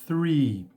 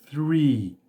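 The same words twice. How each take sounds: First: It begins with a breathy th sound. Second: The same.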